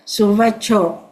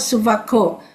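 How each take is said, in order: First: The middle consonant is a ch sound. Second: The middle consonant is a hard k sound. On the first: The speaker calls it right. "C is ch" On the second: The speaker calls it wrong. "not Suvako"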